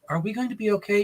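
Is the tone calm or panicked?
calm. It is said in a calm, flat tone. The speaker calls it wrong.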